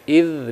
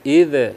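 First: The final consonant flows smoothly without bouncing. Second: The final consonant ends with a bouncing release. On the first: The speaker calls it right. "biarkan dia ngalir saja" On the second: The speaker calls it wrong. "nggak boleh"

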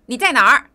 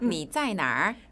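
First: It is said in an angry, shouting tone. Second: It is said in a calm, neutral tone. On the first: A parent is scolding a child who stayed out late. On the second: It is a plain question about where someone is.

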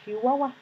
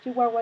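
First: The word starts with an exaggerated 'sh' sound. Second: The word starts with a plain 'ch' sound. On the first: "sobrepronunciamos la she" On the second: "en vez de decir Chihuahua"

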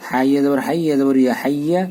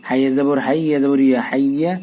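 The two takes are said the same way.

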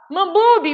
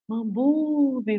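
First: The word is said loudly. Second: The word is said quietly. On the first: The lion is close to the prey. "todos devem falar Mambube, Mambube, mais alto" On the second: The lion is far from the prey. "os demais participantes falam baixinho"

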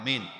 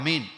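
First: The word is said at normal loudness. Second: The word is said more loudly.

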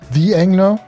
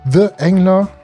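First: The article is pronounced like 'thee'. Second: The article is pronounced like 'thuh'. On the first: The speaker calls it right. "Aufpassen, wegen dem Vokal nach dem Artikel" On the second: The speaker calls it wrong.

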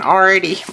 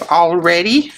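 First: The word is said quickly in a Southern accent. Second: The word is said fully in a standard accent.

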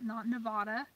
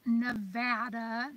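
First: Nevada is said the way East Coasters say it. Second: Nevada is said the way locals say it. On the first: The speaker calls it wrong. "not Nevada. ... or is that just the East Coast idiots?" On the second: The speaker calls it right. "pronounce Nevada"

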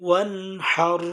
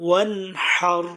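Both takes have the same delivery.

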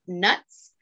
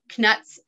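First: The K at the start is silent. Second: The K at the start is pronounced.

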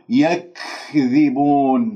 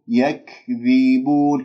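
First: The consonants are released with exaggerated breathiness. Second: The consonants are released smoothly without exaggeration. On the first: The speaker calls it wrong. "هنالك من يبالغ يقول يكذبون، هذه مبالغة في الهمس" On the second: The speaker calls it right. "إذن انتبهوا"

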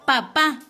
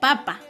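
First: The stress is on the last syllable. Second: The stress is on the first syllable. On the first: It means one's father. "Cuando lleva tilde nos referimos a nuestro padre" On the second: It means a vegetable. "sin tilde diría papa"

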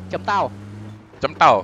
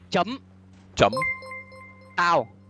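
First: The phrase is said at a normal pace. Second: The phrase is said slowly, word by word.

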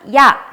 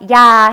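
First: The vowel is cut short. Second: The vowel is held long. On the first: "짧게 발음하는 모음" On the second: "길게 발음하는 모음"

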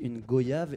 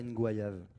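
First: The first syllable sounds like 'go'. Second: The first syllable sounds like 'gwa'. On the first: This is the usual French pronunciation. The speaker calls it wrong. "qu'on disait une goyave" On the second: This is the Guadeloupean pronunciation, matching voyage. The speaker calls it right. "et pas une goyave"

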